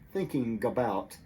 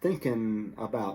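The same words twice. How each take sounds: First: The g at the end of thinking is pronounced. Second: The g is dropped and n links onto about. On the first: The speaker is trying to sound very proper. "will not always say thinking about" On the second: This is the everyday way most people say it. "they will make this easier sound"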